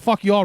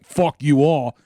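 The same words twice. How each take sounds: First: It is said in a light, joking tone. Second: It is said in a harsh, angry tone. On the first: The speaker is only kidding. "they could just tell that that's a joke" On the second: The speaker is really mad. "I wasn't like"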